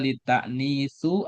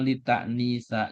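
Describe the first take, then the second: First: The word ends in a u vowel. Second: The word ends in an a vowel. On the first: "Jadi nggak boleh dibaca litaknisu" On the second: "atau litaknisa"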